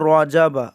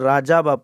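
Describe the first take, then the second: First: The first vowel is a rounded, 'o'-like sound. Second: The first vowel is an open, plain 'a'. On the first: The speaker calls it right. "আমরা পড়ব রজাবা" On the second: The speaker calls it wrong. "অনেকেই রার উচ্চারণ করতে পারেন না, রাজাবা পড়েন।"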